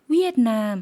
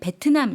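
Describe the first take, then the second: First: The word begins with a W sound. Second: The word begins with a V sound. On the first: "W 발음으로 대신 ... 위에트남 했다" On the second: "V로 발음을 하는데 ... 베트남 이렇게 안 하고"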